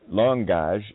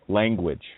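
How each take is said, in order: First: The word ends with a 'gage' sound, without 'w'. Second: The word ends with the usual 'gwidge' sound. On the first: "langage is the tongue pledge" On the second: "You might pronounce it, oh, language"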